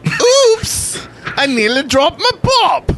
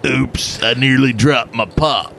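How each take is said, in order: First: High, hammed-up fake English accent; a terrible mock English accent; bad English accent. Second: Put-on redneck English accent. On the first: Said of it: "that was a horrible English accent". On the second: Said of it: "It's a redneck in England".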